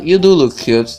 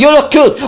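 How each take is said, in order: First: It is said at a normal, softer volume. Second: It is said loudly.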